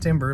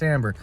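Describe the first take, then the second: First: The first syllable sounds like 'tim'. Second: The first syllable sounds like 'tam'. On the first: The speaker calls it wrong. "not timber" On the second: The speaker calls it right. "but timbre"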